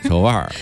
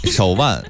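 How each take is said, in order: First: The word ends with an r-colored sound. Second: The word ends without an r-colored sound.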